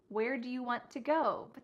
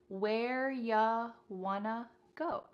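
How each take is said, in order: First: Every word is said fully and separately. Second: You becomes ya and want to becomes wanna.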